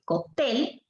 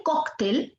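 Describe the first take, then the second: First: "cóctel" said slowly as coc-TEL; stress on last syllable. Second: "cóctel" said slowly as COC-tel; stress on first syllable. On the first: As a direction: hit the final TEL of "cóctel". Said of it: "es palabra aguda". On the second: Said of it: "es palabra grave". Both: Shown as a demonstration.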